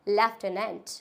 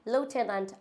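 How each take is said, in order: First: It is said in a British accent. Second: It is said in an American accent. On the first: "in British language we can say that लेफ्टेनेंट" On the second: "American में हम इसको pronounce करते हैं लूटेनेंट"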